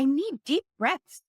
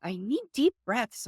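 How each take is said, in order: First: High, rising little-kid voice, mildly played; imitating her toddler. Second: A bit high, falling little-kid voice, lightly played; imitating her toddler again. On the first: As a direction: pipe up like a three-year-old asking for help. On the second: Mom repeating her toddler's request, lightly voiced child falling. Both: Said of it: "she's just like".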